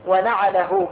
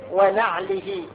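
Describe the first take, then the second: First: ونعله with fatha on both nun and ayn; open-vowel ayn. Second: ونعله with fatha on the nun and no vowel on the ayn; silent-vowel ayn. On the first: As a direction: say ونعله as "wa-na'alahu", ayn opened with an a. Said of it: "بفتح العين". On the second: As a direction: say ونعله as "wa-na'lihi", ayn closed. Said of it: "بفتح النون وإسكان العين". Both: Shown as a demonstration.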